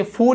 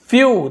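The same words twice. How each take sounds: First: फू as plain "foo", no glide; counter-example फू with a bare "oo"; mistaken reading. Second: फ्यू loud and high, with a "y" glide; emphatic model फ्यू, "y" before "oo"; corrected pronunciation. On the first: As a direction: say फू without any "y". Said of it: "इसे फू नहीं बोल रहे हम". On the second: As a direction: punch out फ्यू as "fyoo", then fall. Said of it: "क्या बोल रहे हैं?". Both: Shown as a demonstration.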